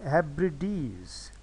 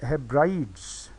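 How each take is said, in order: First: हेब्रिडीज said heb-ri-deez, in three beats; हेब्रिडीज with three clear syllables; three-syllable pronunciation. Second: हेब्राइड्स said slowly as heb-rides; slow हेब्राइड्स in two syllables; two-syllable mispronunciation. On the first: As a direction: give हेब्रिडीज a separate final "deez". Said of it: "इसकी असल pronunciation है". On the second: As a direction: read हेब्राइड्स wrongly, ending like English "brides". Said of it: "अगर इसको ऐसे पढ़ा जाए". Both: Shown as a demonstration.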